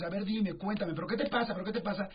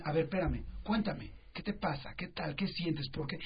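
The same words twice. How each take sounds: First: A pressing, insistent parent, a little higher; pushy parent. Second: Softer, slower, patient questions; calm parent. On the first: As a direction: hound the kid for answers. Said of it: "estamos todo el tiempo encima de ellos". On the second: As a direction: gently invite the kid to talk. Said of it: "en lugar de decirle". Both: Retold or imitated.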